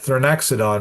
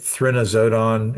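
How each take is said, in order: First: The X in the name sounds like ks. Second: The X in the name sounds like a z. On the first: "Maybe that's how you're supposed to say it" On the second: "I think you pronounce it like a Z"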